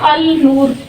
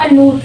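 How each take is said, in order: First: The 'l' sound is pronounced before 'noor'. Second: The 'l' is silent, blending into a doubled 'n'. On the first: The speaker calls it wrong. "लोग कहते हैं अल नूर" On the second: The speaker calls it right. "असल में ग्रामेटिकली इसको पढ़ना चाहिए अनूर"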